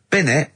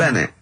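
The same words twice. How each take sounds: First: Binnett said with a short i as the wrong version; the wrong name, Binnett, with an i sound. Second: Bennett said with a clear e as the right version; corrected name, Bennett. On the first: Retold or imitated. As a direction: mispronounce it as Binnett. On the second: Shown as a demonstration. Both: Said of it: "his name's not Binnett".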